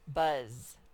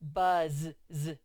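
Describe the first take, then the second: First: The final z sound is said once. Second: The final z sound is said twice. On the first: The speaker calls it right. "See how the Z only made one sound?" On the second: The speaker calls it wrong. "I did not say buzz, z"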